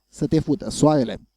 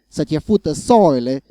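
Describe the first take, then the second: First: It is said with the standard literal pronunciation. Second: It is said with a western regional pronunciation. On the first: "the literal pronunciation" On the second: "notice the different pronunciation"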